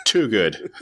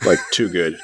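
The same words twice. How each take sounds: First: Laughing, stressing too; laughing emphasis. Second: Said in the usual way. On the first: Real, not acted. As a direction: chuckle through it, stress too.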